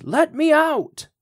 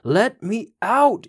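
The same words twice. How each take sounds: First: Very high, slow, desperate shriek; second scream, pitched far above the first. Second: High, slow, pleading scream from inside a pocket; first desperate scream, high and drawn out; muffled scream. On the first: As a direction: scream it at the top of the voice, begging. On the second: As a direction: howl to be let out, trapped and burning. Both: A narrator's reading. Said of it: "he could hear Old Nick start to scream".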